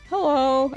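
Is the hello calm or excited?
calm. It is said in a calm, plain way.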